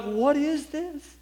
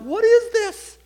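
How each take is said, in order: First: Put-on high, slow, wondering child's voice; amazed child's question. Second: Much higher and louder, breaking with tears; a boy crying out in wonder; tearful child's question. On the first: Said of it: "I began to weep". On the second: Retold or imitated. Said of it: "bawl like a baby".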